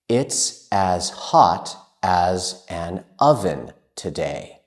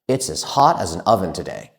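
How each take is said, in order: First: It is spoken at a normal, careful pace. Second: It is spoken at a very fast pace.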